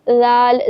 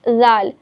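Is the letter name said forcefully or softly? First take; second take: softly; softly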